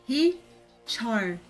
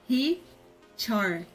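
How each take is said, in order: No difference in how they are said.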